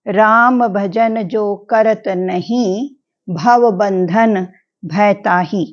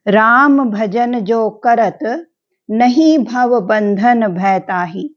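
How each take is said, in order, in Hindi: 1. विराम 'nahin' शब्द के बाद आता है। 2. विराम 'karat' शब्द के बाद आता है।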